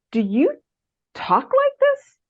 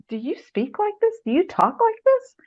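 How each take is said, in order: First: Mentor's challenge. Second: Higher, repeated quizzing; mentor's challenge. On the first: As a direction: raise the voice way up, drawing out the doubt. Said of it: "And he kept saying". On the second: Mentor marking up the paragraphs, quizzing in a higher voice. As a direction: lift the voice, asking it over and over. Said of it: "about every other paragraph". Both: Retold or imitated.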